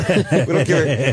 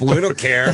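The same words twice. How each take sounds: First: "We don't care" drawn out slowly through a laugh; new rulers renaming the country, slow and laughing; slow laughing repeat. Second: Said in the usual way. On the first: Retold or imitated.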